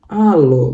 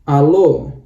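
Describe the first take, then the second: First: The stress is on the first syllable. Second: The stress is on the last syllable. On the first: The speaker calls it wrong. "bukan lagi alo, bukan ya" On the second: The speaker calls it right. "penekanannya di o yang terakhir"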